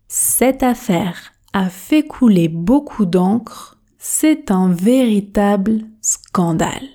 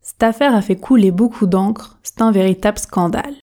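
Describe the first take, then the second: First: The sentence is spoken slowly and carefully articulated. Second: The sentence is spoken quickly and informally. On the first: "on commence à la vitesse tortue. Objectif, articulation" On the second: "pratiquons la version rapide, la version express"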